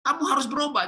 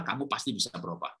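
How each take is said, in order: First: Very high, pushy parental demand; demanding reproach. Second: Low, soft encouragement; gentle assurance. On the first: Parent ordering a child to change, demanding reproach. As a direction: insist in a high, scolding voice. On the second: Parent assuring a child change is possible, gentle assurance. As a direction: reassure quietly, in a lowered voice. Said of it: "kalimatnya adalah". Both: Shown as a demonstration.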